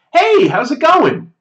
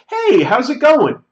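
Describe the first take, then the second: First: High, bright, slow casual hello; overly familiar greeting. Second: High, loud breezy hello to a stranger; overly familiar greeting. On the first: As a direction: greet a stranger like an old friend. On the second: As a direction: greet him as if you know him. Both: Retold or imitated. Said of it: "As though I know him".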